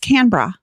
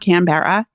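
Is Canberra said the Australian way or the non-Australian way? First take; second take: Australian; non-Australian. First: It is said with the Australian pronunciation. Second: It is said with a non-Australian pronunciation. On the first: The speaker calls it right. "It's Canberra" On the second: The speaker calls it wrong. "No, it's not Canberra"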